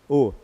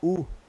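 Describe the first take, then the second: First: The vowel is an o sound. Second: The vowel is a u sound. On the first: "O que está escrito aqui?" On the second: "Você fala u"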